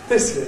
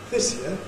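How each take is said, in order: First: The pitch falls on year and stays low. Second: The pitch falls then rises again on year. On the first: It is a blunt correction. "that would be a four" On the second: It is a polite correction. "four rise. That's polite"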